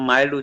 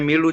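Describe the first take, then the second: First: The vowel is a long 'eye' sound. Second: The vowel is a short 'ih' sound. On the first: The speaker calls it right. "এটা মাইল্ড উচ্চারণ করবে" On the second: The speaker calls it wrong. "এটা মিল্ড উচ্চারণ করবে না"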